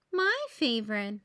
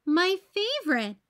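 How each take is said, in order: First: Understated storybook sadness; sad. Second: High, louder happy exclamation; delighted. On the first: Emily loses her caramel sauce, mildly sad. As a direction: say it with a touch of disappointment, voice held down. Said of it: "said Emily sadly". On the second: The last sundae left is the favorite, delighted. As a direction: say it with delight, pitched up. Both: A narrator's reading.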